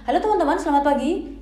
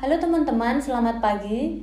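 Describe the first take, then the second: First: The greeting is said quickly and rushed. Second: The greeting is said at a relaxed, normal pace. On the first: The speaker calls it wrong. "itu terasa tergesa-gesa" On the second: The speaker calls it right. "Nah seperti itu pasnya"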